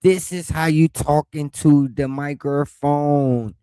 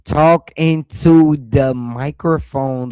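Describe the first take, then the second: First: Slow, deliberate "microphone"; slow spelled-out mic demo. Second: Slow, loud into the mic; slow loud demonstration; slow demo. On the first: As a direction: demonstrate slowly and clearly. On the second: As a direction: show how to talk into the microphone. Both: Shown as a demonstration.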